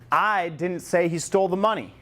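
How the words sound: The stress is on the word I.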